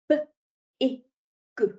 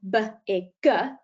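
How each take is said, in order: First: Each consonant sound is short with no added vowel. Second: Each consonant sound ends with an added 'uh' vowel. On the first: The speaker calls it right. "we keep the sounds really pure" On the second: The speaker calls it wrong. "saying those sounds with a schwa on"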